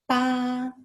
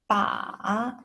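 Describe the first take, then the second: First: The pitch stays high and level. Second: The pitch dips low, then rises. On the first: "the first tone" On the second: "Third tone, the falling rising tone"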